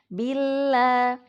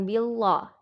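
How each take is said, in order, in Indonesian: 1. Bunyi L tipis dan ringan. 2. Bunyi L tebal dan berat. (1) "lamnya itu dibaca tarkik atau tipis"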